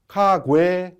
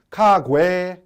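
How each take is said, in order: First: The second consonant sounds soft and voiced. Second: The second consonant sounds soft and voiced.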